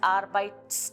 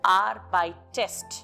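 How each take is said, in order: First: The ending -st follows the t directly, no vowel. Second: An e vowel is heard between t and -st. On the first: The speaker calls it wrong. "Without an additional E, ... it sounds as arbeitest, which is not easy" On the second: The speaker calls it right. "an E is added after this T ending and before the st ending"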